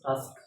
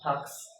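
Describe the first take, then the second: First: The s sound comes before the k. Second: The k sound comes before the s. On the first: The speaker calls it right. "এস is placed before কে" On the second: The speaker calls it wrong. "It is not টাস্ক"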